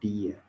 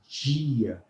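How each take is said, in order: First: The d is a plain d sound. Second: The d sounds like the j in jeans. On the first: This is how people in the far south say it. "Os gaúchos também costumam... dizer dia" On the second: This is how most of Brazil says it. "numa grande parte do Brasil... nós falamos dia"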